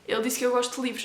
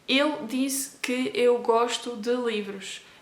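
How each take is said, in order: First: The whole sentence flows without pauses. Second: Each word is read separately with pauses.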